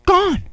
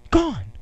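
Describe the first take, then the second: First: Pitched high in dismay; a child finding his cake gone, crying out in dismay; shocked disbelief. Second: Said in the usual way. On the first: Retold or imitated. Repeating the discovery in dismay.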